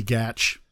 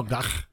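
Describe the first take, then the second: First: Gatch ending in "tch", like catch; alternative pronunciation. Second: Gach with a guttural, throat-scraped "kh" ending; Klingon pronunciation. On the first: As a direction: say Gatch to rhyme with match. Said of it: "it might be Gatch". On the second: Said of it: "Can we say it like Klingon". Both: Shown as a demonstration.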